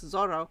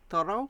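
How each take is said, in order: First: The name begins with a hard z sound. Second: The name begins with a soft th sound. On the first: "with the Mexican Spanish it's a harder Z" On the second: "more classical Spanish accent almost say Zorro's name with a T H"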